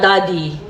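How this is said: It sounds let down and disappointed.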